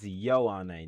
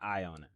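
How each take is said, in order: First: The name begins with a 'yo' sound. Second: The name begins with an 'eye' sound. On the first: The speaker calls it right. "it's Yoane" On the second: The speaker calls it wrong. "not Ione"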